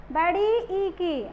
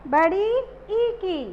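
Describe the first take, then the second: No difference in how they are said.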